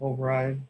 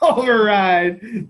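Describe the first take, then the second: First: It is said without enthusiasm. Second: It is said with excitement.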